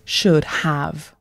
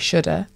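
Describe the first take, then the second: First: The word 'have' is pronounced fully and strongly. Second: The word 'have' is reduced to a weak vowel. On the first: "with like the strong pronunciation of have" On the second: "Americans would often say shoulda"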